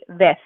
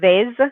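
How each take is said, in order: First: The word ends with a lisped TH sound. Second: The word ends with a buzzing Z sound. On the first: "Spain Spanish accent, it'd be ves with a T H sound" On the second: "not a hard Z sound. So it's not vez"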